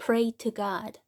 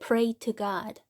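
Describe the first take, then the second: First: The t in 'to' is a clear t. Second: The same.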